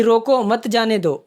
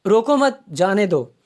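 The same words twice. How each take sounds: First: रोको, then a break, मत जाने दो as one group; pause after रोको. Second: रोको मत as one group, a break, then जाने दो; pause after मत. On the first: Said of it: "पहले में तो है कि". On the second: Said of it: "और दूसरे में है". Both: Shown as a demonstration.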